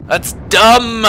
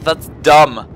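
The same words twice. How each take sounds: First: High, drawn-out "dumb" in protest; stress on dumb. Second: Said in the usual way. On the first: Real, not acted. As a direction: lean hard on "dumb", pitched up and stretched. Repeats complaint more emphatically.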